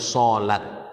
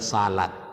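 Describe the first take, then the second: First: The first vowel sounds like 'o'. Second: The first vowel sounds like 'a'. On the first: The speaker calls it right. "bacanya solat" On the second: The speaker calls it wrong. "jangan salat"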